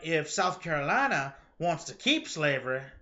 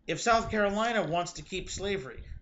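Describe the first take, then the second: First: It is said in a put-on Southern accent. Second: It is said in the speaker's plain accent. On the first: "as I'm in a horrible southern accent" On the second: "We'll stop now"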